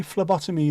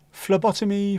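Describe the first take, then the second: First: Said in the usual way. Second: Phlebotomy said higher and louder; emphatic Phlebotomy. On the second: Real, not acted. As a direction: punch out Phlebotomy.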